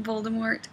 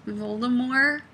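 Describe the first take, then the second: First: Voldemort with the final T sounded; T pronounced. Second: Voldemort with the final T dropped; silent T. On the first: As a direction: say Voldemort ending in a hard T. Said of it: "he doesn't pronounce the T". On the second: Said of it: "with no T". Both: Shown as a demonstration.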